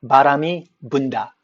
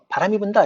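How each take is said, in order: First: The b sounds are voiced, with strong throat vibration. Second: The b sounds are voiceless, without throat vibration. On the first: "자신들의 그 브 사운드가 유성음이잖아요. 바람이 분다 이렇게 발음해요" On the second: "바람이 분다 이렇게 발음 못해요"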